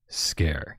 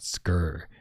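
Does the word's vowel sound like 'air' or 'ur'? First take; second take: air; ur. First: The vowel sounds like 'air'. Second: The vowel sounds like 'ur'. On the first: The speaker calls it right. "it's supposed to be pronounced Scare" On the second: The speaker calls it wrong. "I thought Skur just because of how it's spelled"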